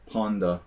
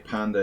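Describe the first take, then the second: First: The first vowel is rounded, like in 'pawn'. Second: The first vowel is open, like in 'cat'. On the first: This is the Hungarian way of saying it. "is pronounced ponda. So it sounds like pawn" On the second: This is the English way of saying it. "what we say panda in English"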